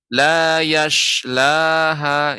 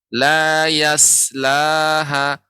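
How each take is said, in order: First: The s sound becomes a hushing sh sound. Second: The s is thin and light, like plain s. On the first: "Atau jadi shin" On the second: "Kalau dia huruf tipis sin ... Dia tipis"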